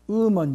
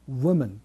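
First: It begins with a plain u vowel. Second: It begins with a w glide. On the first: The speaker calls it wrong. "W の発音が抜けちゃってますね" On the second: The speaker calls it right. "英語ではW がありますから"

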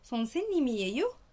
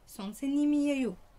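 First: It is said with a question intonation. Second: It is said with a statement intonation. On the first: Are you a teacher? "كأني بقول لها هل أنت معلمة؟" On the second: I am a teacher. "أكون معلمة"

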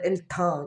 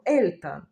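First: The word is said in a French manner. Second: The word is said in a German manner. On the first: The speaker calls it wrong. "на французький манер" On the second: The speaker calls it right. "німецькою ми говоримо «Ельтан»"

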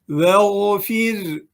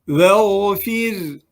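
Both takes have the same delivery.

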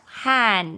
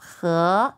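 First: It is read with the Taiwan pronunciation, han. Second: It is read with the Mainland pronunciation, he. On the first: This is how it is read in Taiwan. "Đài Loan lúc này đọc hàn" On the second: This is how it is read in mainland China. "bên Trung sẽ đọc khớ"

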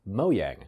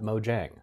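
First: The j is a soft y sound. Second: The j is a hard English j sound. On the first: The speaker calls it right. "it's pronounced Mojang" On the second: The speaker calls it wrong. "not Mojang"

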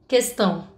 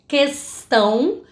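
First: The S sound is cut short. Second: The S sound is held long. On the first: It gives no clue where the speaker is from. The speaker calls it right. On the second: It hints the speaker is from another region. The speaker calls it wrong.

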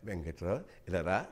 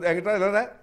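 First: The line is spoken slowly and drawn out. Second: The line is spoken quickly and briskly. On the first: This is how dialogue was delivered in earlier days. "ఇలా ఉండేది కాదు" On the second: This is how dialogue is delivered now. "ఇప్పుడు వెంకట్రావు ఇలా రా అంటాం"

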